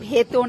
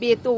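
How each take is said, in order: First: The word begins with an aspirated bh sound. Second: The word begins with a plain b sound. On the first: The speaker calls it wrong. "আরে ভেতো না" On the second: The speaker calls it right. "বেতো বলে ওটাকে।"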